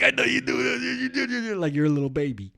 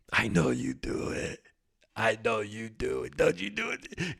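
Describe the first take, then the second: First: Put-on very high squeaky baby talk; tickle-talk in a high, gleeful squeal; tickling a baby. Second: Put-on soft teasing baby talk, climbing in pitch; playful tickling. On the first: Host mock-tickling listener like a baby, high squealing baby talk. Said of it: "kinda tickling you". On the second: Host pretends to tickle the listener, soft teasing coo. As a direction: coax and tease, softly rising. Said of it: "This is me, like, kinda tickling you".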